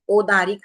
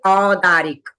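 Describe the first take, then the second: First: The first vowel is a plain o sound. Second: The first vowel is a gliding au sound. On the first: The speaker calls it wrong. "ओदारिक नहीं बोलना है" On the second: The speaker calls it right. "औ है तो इसको औ बोलना है"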